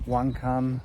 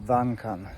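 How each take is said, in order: First: It is said with an English pronunciation. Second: It is said with a Polish pronunciation. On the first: "In English, you got wankan" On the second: "but in Polish would be wankan"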